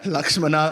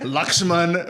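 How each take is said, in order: First: The name ends with an added final vowel. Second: The name ends on the 'n' consonant. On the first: This is the southern way of saying it. "we're like Rama, Lakshmana" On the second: This is the northern way of saying it. "everyone's Ram, Lakshman"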